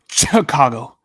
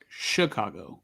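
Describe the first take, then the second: First: The first sound is said hard and heavy. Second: The first sound is said softly and lightly. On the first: "Mike goes like really hard on the Chicago" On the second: "Everyone I know pronounces it like Chicago"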